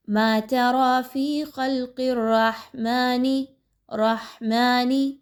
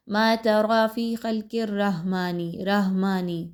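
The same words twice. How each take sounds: First: رَحْمَنِ with a throaty ha from mid-throat; correct ha. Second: رَحْمَنِ with a light, plain h; wrong ha. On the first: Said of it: "ہا کے مخرج پر focus کیجئے". (حلق سے ہا کی ادائیگی) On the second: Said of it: "یہ کریکٹ انداز نہیں ہے". (غلط ہلکی ہا) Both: Shown as a demonstration.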